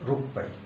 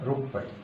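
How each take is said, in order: The two takes are said the same way.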